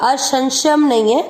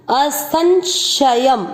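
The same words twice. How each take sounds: First: असंशयम said with श in place of स, as a mistake; mock the common error, hissing श; wrong version. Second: असंशयम slowly with a clean स in the middle; correct version. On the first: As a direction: demo of wrong pronunciation. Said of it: "इस स को भी इस श का उच्चारण करते". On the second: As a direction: stretch असंशयम, keeping स sharp. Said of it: "उच्चारण करते हुए ध्यान देना है". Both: Shown as a demonstration.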